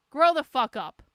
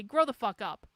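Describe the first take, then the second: First: Much louder "Grow the fuck up"; angry louder repeat. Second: Said in the usual way. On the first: Real, not acted. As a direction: shout it the second time.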